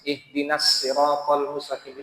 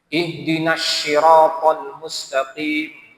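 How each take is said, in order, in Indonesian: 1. Siratal diawali dengan bunyi s biasa. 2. Siratal diawali dengan bunyi sh. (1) "pakai sin. ... itu benar juga" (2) "Huruf shad berubah jadi shin"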